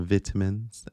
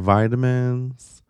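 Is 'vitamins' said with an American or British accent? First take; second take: British; American. First: The word is said with a British accent. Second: The word is said with an American accent.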